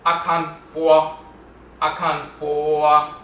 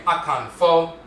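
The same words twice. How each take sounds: First: Akan Fo with Fo gliding and dipping, slow; Asante Fo. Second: Akan Fo with a plain pure o in Fo; Akwamu Fo. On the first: Teacher shows the Asante way: Fo slow with a dipping glide. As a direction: Fo drawn out slowly with a dipping diphthong. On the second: Teacher contrasting dialects: Akan Fo with plain o. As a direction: Fo said with one steady o, no glide. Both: Shown as a demonstration. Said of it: "the Fo has a diphthong".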